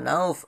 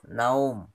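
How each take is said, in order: First: The word ends with an f sound. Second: The word ends with an m sound. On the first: The speaker calls it wrong. "Bukan nauf" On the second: The speaker calls it right.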